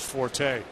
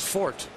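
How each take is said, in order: First: The word is said with two syllables. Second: The word is said with one syllable. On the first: The speaker calls it wrong. "I said forte" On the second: The speaker calls it right. "That's the correct pronunciation of that word"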